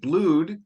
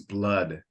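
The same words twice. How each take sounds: First: The vowel is a long 'oo' sound. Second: The vowel is a short 'uh' sound. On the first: The speaker calls it wrong. "I think you said blood" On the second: The speaker calls it right. "the way this is pronounced is blood"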